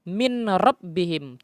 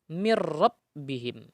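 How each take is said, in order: First: The n is pronounced clearly before the r. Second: The n merges fully into a doubled r. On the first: The speaker calls it wrong. "tidak boleh min rabbihim, tidak boleh" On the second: The speaker calls it right. "langsung dimasukkan nun mati kepada huruf berikutnya, yaitu huruf ro"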